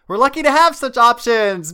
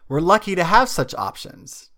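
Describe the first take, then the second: First: It is said with big, excited emphasis. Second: It is said in a flat, plain way.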